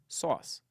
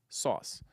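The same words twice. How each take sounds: The two takes are said the same way.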